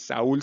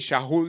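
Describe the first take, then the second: First: The name is said in its Spanish form. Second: The name is said in its Hebrew form. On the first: This is the form printed in the Bible. "aquí en tu Biblia tú tienes Saúl" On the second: This is how the voice said it in Hebrew. "esto se pronuncia así"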